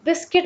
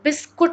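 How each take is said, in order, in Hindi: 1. आख़िरी अक्षर 'kit' जैसा लगता है। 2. आख़िरी अक्षर 'kut' जैसा लगता है। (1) "इसको हम बिस्किट बोलते हैं" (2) "ये बिस्कुट नहीं होता है"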